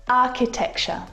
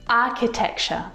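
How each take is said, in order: The two takes are said the same way.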